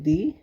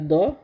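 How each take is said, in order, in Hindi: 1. स्वर एक छोटी i ध्वनि है। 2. स्वर एक छोटी, तटस्थ uh ध्वनि है। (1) "हर्षई का दी" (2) "एक होता है द"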